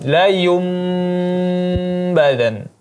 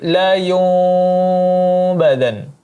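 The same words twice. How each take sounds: First: The lips close fully, giving a clear m sound. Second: The lips stay slightly open, giving a soft nasal. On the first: The speaker calls it wrong. "dengan menutup kedua bibirnya sehingga membentuk seperti huruf mim" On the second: The speaker calls it right. "dengan cara membuka sedikit bibir"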